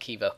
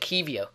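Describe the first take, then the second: First: No extra 'ee' sound comes before the final 'o'. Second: An extra 'ee' sound comes before the final 'o'. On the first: The speaker calls it right. "there's no I before the O, so it must be something like Kivo" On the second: The speaker calls it wrong. "I was saying Kivio, and someone had a go at me"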